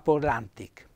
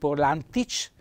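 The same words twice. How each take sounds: First: The final consonant is a hard k sound. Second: The final consonant is soft, not a hard k. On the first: The speaker calls it right. "la pronuncia dura di questa K" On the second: The speaker calls it wrong.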